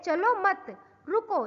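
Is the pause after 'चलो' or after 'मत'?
after मत. There is a pause after 'मत'.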